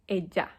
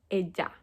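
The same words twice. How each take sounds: Both takes have the same delivery.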